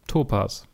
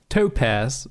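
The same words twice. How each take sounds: First: It is said with a German pronunciation. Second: It is said with a British pronunciation.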